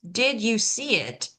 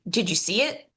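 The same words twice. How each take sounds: First: The words are said separately. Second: Did and you run together into one sound.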